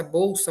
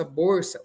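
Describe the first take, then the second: First: "bolsa" com l soando u: bousa. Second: "borsa" com r no lugar do l; L vira R. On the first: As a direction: diga "bolsa" na forma padrão. ("bolsa" sem nenhum som de R) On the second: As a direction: diga "borsa" com R no fim da primeira sílaba. ("borsa", bolsa com rotacismo) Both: Shown as a demonstration. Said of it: "O L se transformar em R".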